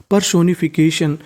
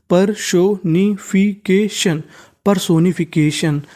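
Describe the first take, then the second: First: Said in the usual way. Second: personification spelt out in slow syllables: per-so-ni-fi-ke-shan; slow model word. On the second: Shown as a demonstration. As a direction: lay out personification slowly for students. (Personification धीरे-धीरे) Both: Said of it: "तो meaning बन गई".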